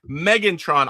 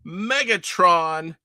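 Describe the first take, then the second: First: The name is said with an n before t. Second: The name is said without an n before t. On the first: The speaker calls it right. "I know what it is" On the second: The speaker calls it wrong. "I always say that wrong"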